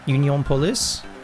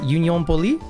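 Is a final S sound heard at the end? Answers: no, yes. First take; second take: yes; no. First: The name ends with an S sound. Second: The name ends without an S sound. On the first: "Or would you pronounce the S at the end?" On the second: "would you pronounce that Union Poli?"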